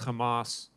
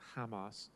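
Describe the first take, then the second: First: The name is said with a Hebrew pronunciation. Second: The name is said with a non-Hebrew pronunciation.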